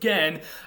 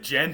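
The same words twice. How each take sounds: First: It begins with a hard g sound. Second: It begins with a soft, j-like g sound. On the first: This is how the root was pronounced in ancient Greek. "in ancient Greek that would have been a hard G" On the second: This is how the root is pronounced today. "we pronounce it gen today"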